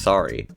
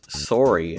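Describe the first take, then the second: First: It is said with a standard pronunciation. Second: It is said with a Canadian pronunciation.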